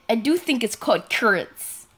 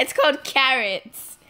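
First: Carrots squashed into "kurts"; odd pronunciation. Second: Carrots with a clear "ka" first vowel; corrected pronunciation. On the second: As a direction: say carrots as "KA-rits". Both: Shown as a demonstration. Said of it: "why do you say it like that".

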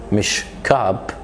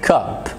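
First: Cup said slow and low with a back vowel; the wrong cup, slowed down. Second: Cup with a front short u; right cup. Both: Shown as a demonstration.

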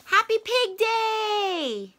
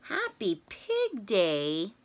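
First: High, bright, slowed Piggie line; excited Piggie. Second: Lower, slow, questioning Gerald line; puzzled Gerald. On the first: Piggie tells Gerald about her holiday, slow and high. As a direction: announce the big day, slowly and much higher. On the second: Gerald repeats it to Piggie, low and puzzled. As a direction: echo it back, lower and unsure. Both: Acted.

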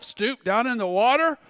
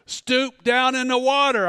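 First: Repeating the order back, rising at water; baffled, checking he heard right; puzzled question. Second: Calm, even command with a falling close; voice of God. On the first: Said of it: "What? Did I just say that to myself?". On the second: Preacher voicing God's command to him in the lake, calm and firm. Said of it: "the voice just said this". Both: Retold or imitated.

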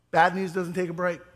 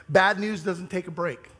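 The two takes are said the same way.

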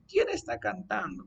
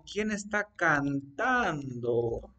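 First: Higher, quicker acted question; natural question. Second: Slow, stretched-out question; slow dictation. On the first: Someone arriving home asks who is singing, higher natural question. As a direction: ask it for real, pitched up. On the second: Teacher dictates what you'd say arriving home, slow dictation. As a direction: draw each word out as if dictating. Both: Shown as a demonstration.

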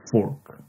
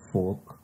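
First: "fork" with a clearly sounded r; r pronounced. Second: British "folk", with no r sound; British pronunciation. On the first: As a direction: say "fork" with the r before the k. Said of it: "But in normal English". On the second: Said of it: "as a British says". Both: Shown as a demonstration.

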